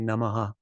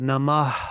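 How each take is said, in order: First: The final h becomes an extra vowel syllable. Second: The word ends in a light breathy h. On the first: The speaker calls it wrong. "Namaha is now three syllables" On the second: The speaker calls it right. "it's two syllables"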